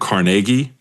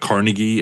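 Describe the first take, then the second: First: The name is said the official way. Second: The name is said the way commonly taught. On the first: The speaker calls it right. "I said his name like that because I think that's the like correct official way" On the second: The speaker calls it wrong. "not Carnegie as I've been taught"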